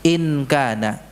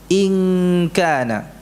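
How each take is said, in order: First: The n is pronounced fully and clearly. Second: The n is a hidden, nasal hum. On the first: The speaker calls it wrong. "Kalau jelaskan in" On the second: The speaker calls it right. "nun sukun yang dibaca dengan ikhfa, samar-samar"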